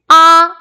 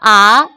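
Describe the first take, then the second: First: The pitch stays high and level. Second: The pitch rises from middle to high. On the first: "일 성" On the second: "이 성"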